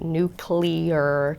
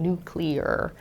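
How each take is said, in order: First: The word uses the casual, stigmatized pronunciation. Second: The word uses a careful, standard pronunciation. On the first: "the pronunciation nuclear" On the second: "very careful when they say nuclear to make sure they're saying nuclear"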